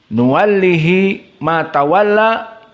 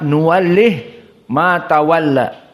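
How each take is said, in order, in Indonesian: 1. Huruf h diikuti vokal i. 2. Huruf h berakhir tanpa vokal setelahnya. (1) "asalnya nuwallihi ma tawalla" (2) "dibaca nuwallih ma tawalla"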